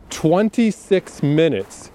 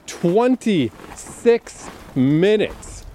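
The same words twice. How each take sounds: First: "twenty-six minutes" drawn out slowly, each word weighed; slow stress. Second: "twenty-six minutes" stretched out even slower, in a marked voice; very slow stress. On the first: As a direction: lean on "twenty-six minutes" slowly to show it's a lot. Stressing how much was cut. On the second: Repeats the number for emphasis. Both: Shown as a demonstration.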